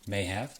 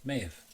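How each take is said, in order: First: Have is said in full with a clear h. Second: Have is reduced, sounding like may've.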